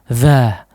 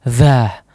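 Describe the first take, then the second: The two takes are said the same way.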